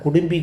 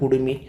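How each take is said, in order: First: The middle has an mb sound. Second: The middle has a plain m sound. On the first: The speaker calls it wrong. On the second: The speaker calls it right.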